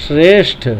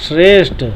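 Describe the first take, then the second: No difference in how they are said.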